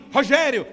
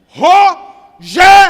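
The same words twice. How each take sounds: First: The name is said smoothly, in one go. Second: The name is said syllable by syllable, as an ultimatum.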